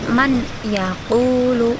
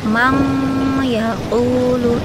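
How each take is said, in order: First: A plain n is heard before the y. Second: An ng sound is heard before the y. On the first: "tidak boleh dibaca man yaqulu" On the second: "atau mang yaqulu, itu enggak boleh"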